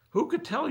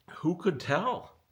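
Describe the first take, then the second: First: "Who could tell?" shot way higher and louder; exasperated outburst. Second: Slow, rising, disbelieving "Who could tell?" pitched higher; drawn-out "Who could tell?" with a disbelieving lift; incredulous. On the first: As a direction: throw "Who could tell?" up in a high, loud squeal of disbelief. Exasperated repeat, much higher. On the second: Exasperated rhetorical question. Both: Real, not acted.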